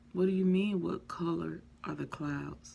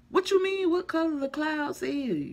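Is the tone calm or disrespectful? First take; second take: calm; disrespectful. First: It sounds low, calm and respectful. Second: It sounds high-pitched and disrespectful.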